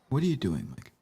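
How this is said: The question sounds condescending and dismissive. The asker looks down on what is being done. The speaker calls it wrong. "I didn't mean that to sound so condescending"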